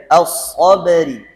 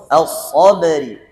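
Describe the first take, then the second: Both takes have the same delivery.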